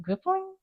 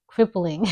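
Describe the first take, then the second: First: "crippling?" asked much higher, unsure of the word; high unsure question. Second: Said in the usual way. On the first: Shown as a demonstration.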